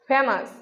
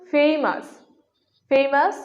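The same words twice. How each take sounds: First: ফেমাস with a short 'e', 'fe-mas'; common mispronunciation. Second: ফেমাস with a long glide, 'FEI-mas'; corrected pronunciation. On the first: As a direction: say ফেমাস without a glide. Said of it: "এটা কি সঠিক?". (ফেমাস-এর ভুল উচ্চারণ, 'ফেমাস') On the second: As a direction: stretch the first vowel of ফেমাস to 'ei'. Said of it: "এর সঠিক উচ্চারণ হবে". (ফেমাস-এর শুদ্ধ উচ্চারণ, 'ফেইমাস') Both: Shown as a demonstration.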